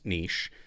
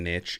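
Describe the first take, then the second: First: The word does not rhyme with itch. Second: The word rhymes with itch, like riches. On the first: The speaker calls it right. "It's niche. Uh, it just doesn't rhyme well" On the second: The speaker calls it wrong. "It's not the niche"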